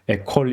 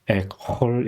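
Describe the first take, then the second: First: The middle consonant is a plain, light sound. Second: The middle consonant is a throaty, het-like sound. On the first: The speaker calls it wrong. "이렇게 발음하지 않고" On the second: The speaker calls it right. "페트와 거의 비슷하게 발음합니다"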